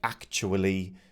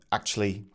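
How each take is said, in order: First: The word is said with every syllable in full. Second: The word is said with syllables reduced. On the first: "a word like actually" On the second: "could be reduced to"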